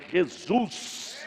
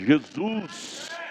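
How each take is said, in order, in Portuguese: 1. É dito com um sotaque carioca imitado. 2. É dito com um sotaque mineiro-goiano simples. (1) "esse sotaquezinho denominacional" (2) "Vamos falar no nosso idioma correto"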